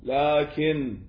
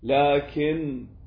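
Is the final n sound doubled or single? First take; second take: single; single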